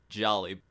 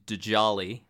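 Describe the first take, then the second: First: The name starts with a 'j' sound. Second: The name starts with a 'd' sound. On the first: "that's easier to pronounce and it's also correct" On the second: "I have to say it that way just for the first time to point out that it is a D-J-A-L-I"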